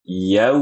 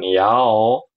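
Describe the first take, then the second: First: The vowel is said with a narrower mouth. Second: The vowel is said with a wide-open mouth. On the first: The speaker calls it right. "Yau. Gitu" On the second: The speaker calls it wrong. "bukan yao"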